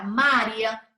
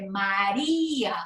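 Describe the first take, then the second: First: María said as MA-rya, I and A fused; stress moved to first syllable. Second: María slowed as ma-RÍ-a, long I; strong separate I. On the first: Teacher showing how it would sound unaccented, MA stressed. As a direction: punch MA in María, shrink the I. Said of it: "si nosotros en vez de María ... sonara". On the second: Teacher showing the strong vowel, I held long. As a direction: stretch the Í of María apart from the A. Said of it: "se convirtió en un sonido fuerte". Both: Shown as a demonstration.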